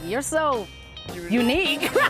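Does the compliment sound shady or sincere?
shady. It is said in a shady, backhanded tone. The compliment is a veiled insult. "He's like, ... shady tone"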